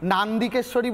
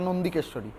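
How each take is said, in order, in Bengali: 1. প্রথম স্বরধ্বনিটি একটি খোলা, দীর্ঘ 'a'। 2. প্রথম স্বরধ্বনিটি একটি ছোট গোলাকার 'o'। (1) "নান্দিকেশ্বরী বলেও কোনো মন্দির নেই" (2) "কথাটা নন্দিকেশ্বরী।"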